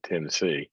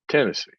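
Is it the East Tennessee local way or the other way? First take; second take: other way; East Tennessee. First: It is said the non-local, outsider way. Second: It is said the East Tennessee local way.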